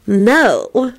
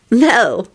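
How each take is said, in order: First: High, wavering refusal; refuse, but let the voice waver; drawn-out, less certain no. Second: High, firm refusal; firm little no. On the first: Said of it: "but her voice wavered". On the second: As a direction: refuse firmly, pitched up. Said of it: "Elizabeth replied firmly". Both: A narrator's reading.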